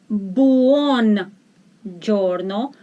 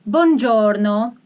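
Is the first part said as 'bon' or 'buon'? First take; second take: buon; bon. First: Said carefully, the first part sounds like buon. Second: Said fast, the first part sounds like bon. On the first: "but actually it is buon giorno" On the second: "When you pronounce it very fast, you don't hear buon, you hear bon"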